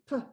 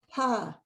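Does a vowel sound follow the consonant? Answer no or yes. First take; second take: no; yes. First: The consonant is said alone, with no vowel. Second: An uh vowel sound follows the consonant. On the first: The speaker calls it right. "They want to say p" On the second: The speaker calls it wrong. "We want to be sure they don't say pa"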